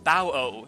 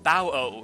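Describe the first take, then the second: First: The word is said with two syllables. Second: The same.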